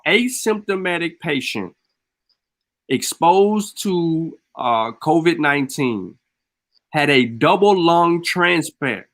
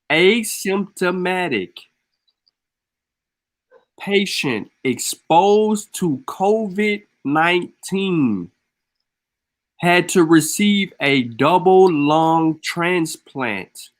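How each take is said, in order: First: It is said at normal speed. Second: It is said slowly.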